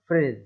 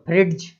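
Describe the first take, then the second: First: The d is silent before the final sound. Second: The d is sounded out separately. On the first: The speaker calls it right. "केवल फ्रिज" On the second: The speaker calls it wrong. "इस तरीके से नहीं बोल"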